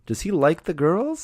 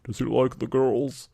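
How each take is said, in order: First: It is said in a normal voice. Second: It is said in a deep voice.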